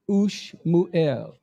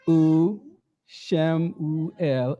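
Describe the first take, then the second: First: The opening u joins the next consonant. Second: The opening u is a separate syllable. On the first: The speaker calls it wrong. "and not" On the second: The speaker calls it right. "the initial U always starts its own syllable"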